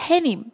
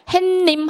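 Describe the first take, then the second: First: It is said with no added sound between syllables. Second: It is said with an added sound between syllables. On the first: The speaker calls it right. "이게 맞는 발음이고" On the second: The speaker calls it wrong. "하면 안 된다고"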